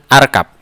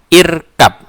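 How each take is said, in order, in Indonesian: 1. Kata ini dimulai dengan vokal 'a'. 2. Kata ini dimulai dengan vokal 'i'. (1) "Bukan arkab" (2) "maka dibaca juga irkab"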